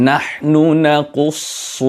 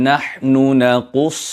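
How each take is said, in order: No difference in how they are said.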